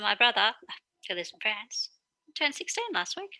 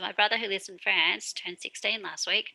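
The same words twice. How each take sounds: First: It pauses before and after 'who lives in France'. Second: It flows straight through without pauses.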